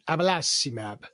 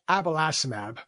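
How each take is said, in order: First: The name is said in an Italian accent. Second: The name is said in a plain English accent.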